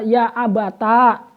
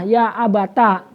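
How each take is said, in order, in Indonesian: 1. Vokal akhir setelah t panjang. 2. Vokal akhir setelah t pendek. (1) "ta ada alifnya" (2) "ya dengan ta yang dibaca fathah"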